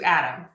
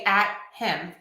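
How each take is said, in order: First: The words are linked and reduced, like 'Adam'. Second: The two words are said clearly and separately. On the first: It suits casual conversation. "which I would say conversationally" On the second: It suits public speaking. "Sometimes I would say at him. Very clearly"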